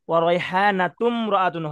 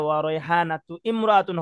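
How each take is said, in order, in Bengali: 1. প্রথম স্বরবর্ণ বাদ যায়, শব্দগুলো একসাথে যুক্ত থাকে। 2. প্রথম স্বরবর্ণ উচ্চারিত হয়, শব্দগুলো আলাদা থাকে। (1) "হবে" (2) "হবে না"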